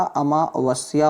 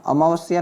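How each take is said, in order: First: अमावस्या split as "amaa-vasya"; correct pronunciation. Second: अमावस्या run together, "amaavasiya"; wrong pronunciation. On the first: Teacher corrects students, अमावस्या as measured "amaa-vasya". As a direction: pause after amaa in अमावस्या. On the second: Teacher shows the error, अमावस्या as unbroken "amaavasiya". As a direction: run अमावस्या through as one word. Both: Shown as a demonstration. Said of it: "अमावस्या नहीं होता".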